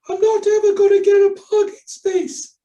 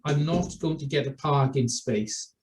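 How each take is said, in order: First: It is said in a silly, absurd voice. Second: It is said in a normal voice.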